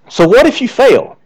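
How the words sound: It sounds like a sincere, open question. If you fail, what do you do next? "One is this"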